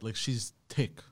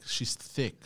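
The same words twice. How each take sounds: First: She's tick, with a t and no th; "tick" said with a plain t instead of th; dropping the th in "tick"; says tick. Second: She's thick, with a clear th; "thick" said with a proper th sound; fixing "thick" to a th; corrected to thick. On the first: Real, not acted. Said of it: "repeat that?". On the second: Shown as a demonstration. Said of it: "Just say thick".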